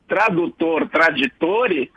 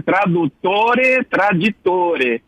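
First: Said in the usual way. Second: Slow Italian delivery of "Tradutore, traditore"; Italian pronunciation. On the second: Shown as a demonstration. Professor quoting the proverb as Italians say it, slow Italian pronunciation. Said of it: "os italianos dizem".

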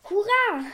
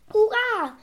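First: High cheer, falling at the end; animals' cheering call. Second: High, loud hurrah with a falling end; cheering call. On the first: Animals answering the doctor's hurrah, cheering call. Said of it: "riefen die Tiere". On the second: Doctor to his animals after the robbers flee, cheering call. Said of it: "rief der Doktor Eibolet". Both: A narrator's reading.

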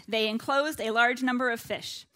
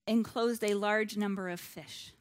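First: Louder repeat, punching "enclosed" and "large"; emphatic repeat. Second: "enclosed" set apart after a pause, measured; stress on enclosed. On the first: Preacher warns quizzers, firmly stressing "enclosed a large number". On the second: Preacher flags a word for the quizzers, stressing "enclosed". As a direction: lean deliberately on the word "enclosed". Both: Real, not acted. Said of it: "I'm stressing that word".

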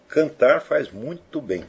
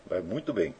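First: "Cantar faz muito bem" said slowly, each word weighed; emphatic. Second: "faz muito bem" repeated quietly, as an afterthought; softer repeat. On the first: (dito devagar e com ênfase) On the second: (repetição mais baixa) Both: Shown as a demonstration.

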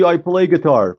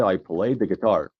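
First: "I play guitar" run straight through, high and loud; "play guitar" as one brisk, raised phrase with no article; American example. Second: "I play the guitar" spaced out slowly, falling at the end; British example. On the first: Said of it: "تو انگلیسی آمریکایی". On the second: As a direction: give "the" its own slow beat before "guitar". («I play the guitar» آهسته و شمرده با the) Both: Shown as a demonstration.

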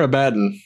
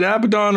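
First: Abaddon said uh-BAD-un, weak last vowel; Abaddon stressed on second syllable. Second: Abaddon said AB-uh-don, open last vowel; Abaddon stressed on first syllable. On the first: Player offering the other pronunciation, Abaddon as uh-BAD-un. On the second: Player asking game master which pronunciation, Abaddon as AB-uh-don. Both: Shown as a demonstration. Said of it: "Is it Abaddon or Abaddon".

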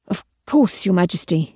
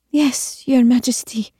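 First: Mildly repentant, deferential reply. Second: Higher, meek and tearful, not whispered; near tears. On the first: Tristan answers the Queen's reprimand, repentant. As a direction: answer with a touch of contrition. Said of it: "in spite of his repentant tone". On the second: Evie yields to the Queen, close to tears. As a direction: answer meekly, about to cry. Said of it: "Evie's voice was barely more than a whisper". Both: A narrator's reading.

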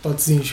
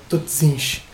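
First: "Totzins" at normal speed, Dutch tot ziens; quick repeat of "Totzins", Recife-like sounds; Dutch pronunciation. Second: "totzins" said slowly as Dutch tot ziens, hissing z; Dutch pronunciation. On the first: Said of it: "pra mim, soa um pouco". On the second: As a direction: drawl out "totzins" like a Recife speaker. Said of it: "Por exemplo". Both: Shown as a demonstration.

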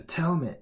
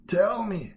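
First: Mildly growled bear's demand, raised in pitch. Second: Loud, high demand; crying out. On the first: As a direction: press for an answer with a touch of growl. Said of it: "he growled". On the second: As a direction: cry out for an answer after a blow. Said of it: "cried the bear". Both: A narrator's reading.

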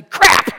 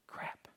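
First: Crap blurted out, much louder and higher; shouted curse. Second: Crap whispered, barely audible. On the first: Retold or imitated. Fouled at basketball, he shouts crap loudly. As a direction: yell crap like you just got shoved. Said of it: "and I would say". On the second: Shown as a demonstration. Preacher demos the polite way to say crap, whispered. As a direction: breathe the word crap with no voice, like a secret. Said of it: "If you whisper it, it's better".

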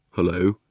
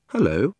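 First: Lightly voiced boy greeting; a hint of a boy, in the storyteller's own pitch; boy's voice. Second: Lightly voiced higher-pitched girl; a friendly girl's hello, slightly raised; young Polly. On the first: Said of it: "said the boy". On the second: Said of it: "said Polly". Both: A narrator's reading.

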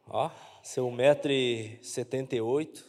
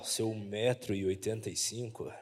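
First: Said in the usual way. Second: Very low, quiet deep voice. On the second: Shown as a demonstration. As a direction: drop the voice way down for this. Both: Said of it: "deixa eu mudar a voz pra falar".

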